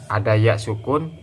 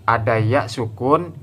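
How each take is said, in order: Both takes have the same delivery.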